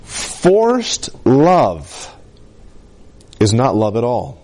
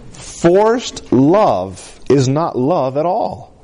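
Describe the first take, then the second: First: Said in the usual way. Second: Drawn out very slowly, each word weighed; slow right down and let every word land; very slow emphasis. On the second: Shown as a demonstration. Pastor repeating the key line to the congregation, very slow and weighty. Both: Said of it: "Let me say it like this".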